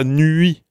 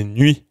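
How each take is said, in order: First: "nuit" with a full vowel u instead of the glide, drawn out; wrong nuit. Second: "nuit" with a quick glide ɥ straight into i; right nuit. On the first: Teacher showing students the wrong way to say nuit, slowly. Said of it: "c'est une consonne. C'est pas". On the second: Teacher showing students the right glide in nuit. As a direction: glide fast through the ɥ in "nuit". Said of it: "C'est nuit". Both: Shown as a demonstration.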